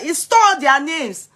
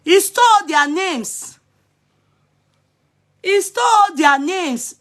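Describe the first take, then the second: First: Said in the usual way. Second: He stole their names slow, stole pressed higher; emphatic repeat. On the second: Shown as a demonstration. Vlogger hammering the point to followers, slow emphatic. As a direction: spell out "stole" slowly for effect.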